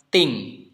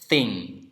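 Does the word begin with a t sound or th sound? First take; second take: t sound; th sound. First: The word begins with a plain t sound. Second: The word begins with a soft th sound. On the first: The speaker calls it wrong. "sering dibaca thing" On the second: The speaker calls it right. "bunyi yang betul adalah thing"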